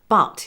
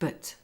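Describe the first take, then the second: First: The vowel is full and clearly pronounced. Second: The vowel is weak and reduced.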